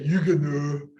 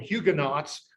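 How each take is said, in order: First: The word has a French pronunciation. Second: The word has an English pronunciation. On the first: "The French say" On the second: "In English, we call them"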